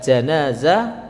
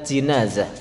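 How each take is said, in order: First: The first vowel is an open a sound. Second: The first vowel is a close i sound. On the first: One accepted Arabic reading. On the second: Another accepted Arabic reading. "boleh juga dibaca jinazah"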